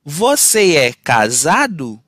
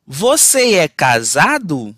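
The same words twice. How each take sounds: The two takes are said the same way.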